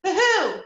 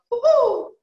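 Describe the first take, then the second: First: High hoo-hoo said the wrong way; a silly special-owl hoot; the hoot not to copy. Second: High, loud owl woo-hoo; demonstrating the owl sound for the class; owl hoot. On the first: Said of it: "make sure it doesn't sound like". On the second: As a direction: hoot up in the head voice. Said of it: "we're going to make an owl sound". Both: Shown as a demonstration.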